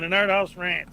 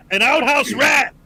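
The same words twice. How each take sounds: First: Said in the usual way. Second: RAT punched loud and higher; corrected reading. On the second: Real, not acted. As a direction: hit "rat" hard to fix the misreading. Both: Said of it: "didn't read it right the first time".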